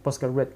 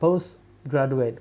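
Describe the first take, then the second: First: Post runs straight into graduate without a break. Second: Post is set apart from graduate. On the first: The speaker calls it wrong. "jangan post langsung postgraduate" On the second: The speaker calls it right. "tapi dipisah"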